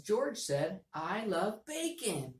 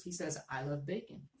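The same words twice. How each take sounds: First: Happy voice. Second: Said in the usual way. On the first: Shown as a demonstration. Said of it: "so I can make my voice go up". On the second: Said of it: "that's George's exact words".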